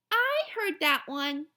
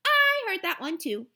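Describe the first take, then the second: First: Put-on slow, higher kid's complaint; drawn-out know-it-all whine; little girl already knows it, slowly; bored little girl. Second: Put-on much higher and louder kid's protest; pushing back harder this time; louder, higher know-it-all child; insistent little girl. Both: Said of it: "Jenny said".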